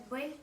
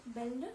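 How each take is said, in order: First: "belle" with a dark Russian L, nearly "bel-ou"; Russian pronunciation. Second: "belle" with a light, released French L; French pronunciation. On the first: Teacher showing the Russian L in belle, Russian pronunciation. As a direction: say "belle" the Russian way, ending on a hard L. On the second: Teacher repeating the French belle for contrast, French pronunciation. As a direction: say "belle" as in French, L clearly sounded. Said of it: "français". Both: Shown as a demonstration.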